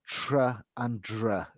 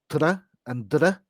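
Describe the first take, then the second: First: The tr and dr have English sounds. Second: The tr and dr have Indian English sounds. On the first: "whereas it's tr and dr in English" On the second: "you might say tr and dr"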